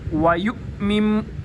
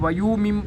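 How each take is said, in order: First: A glottal catch breaks the word in the middle. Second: The word flows without any glottal catch. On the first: The speaker calls it right. "हमज़ा जब साकिन हो तो वहाँ पर झटका दिया जाता है" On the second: The speaker calls it wrong. "गलती करके वायु मिम पढ़ देते हैं, जो कि गलत है"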